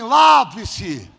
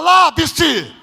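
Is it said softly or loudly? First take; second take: softly; loudly. First: It is said at normal volume. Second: It is said louder.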